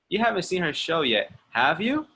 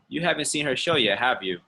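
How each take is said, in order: First: The pitch rises on the tag at the end. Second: The pitch falls on the tag at the end. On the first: The speaker is checking whether it is true. "It's checking" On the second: The speaker expects the listener to agree. "It's like confirming or seeing if I want the person to agree"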